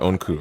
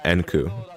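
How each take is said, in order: First: The name begins with an O sound. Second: The name begins with an E sound. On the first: This is how the name is actually said. "Onku's name is like Onku, right?" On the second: This is how the written characters suggest it is read. "the kanji for his name would suggest pronunciation Enku"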